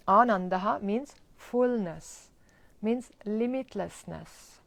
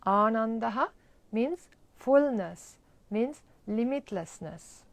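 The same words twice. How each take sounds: The two takes are said the same way.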